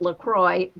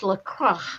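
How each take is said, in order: First: The name ends with an 'oy' sound. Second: The name is pronounced the French way. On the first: Americans read the spelling their own way. "O I X for us would be Oi. So we call it LaCroix" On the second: It is a French word meaning the cross. "it's really a French word and it's Le Croix"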